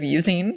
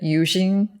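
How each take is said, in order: First: The word is pronounced in the normal way. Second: The word is pronounced in an unusual way. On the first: The speaker calls it right. "instead of using" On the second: The speaker calls it wrong. "I said using"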